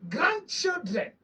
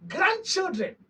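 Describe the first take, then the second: First: Grandchildren drawn out slowly, each syllable weighed; slow emphatic repeat. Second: Said in the usual way. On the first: Real, not acted. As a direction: stretch out grandchildren to drive the point home.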